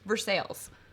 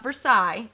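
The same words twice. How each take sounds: First: It is pronounced the way locals say it. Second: It is pronounced the way outsiders say it. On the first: The speaker is from around here. The speaker calls it right. "It's Versailles" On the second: The speaker is not from around here. The speaker calls it wrong. "Not Versailles"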